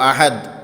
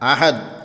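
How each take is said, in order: Both takes have the same delivery.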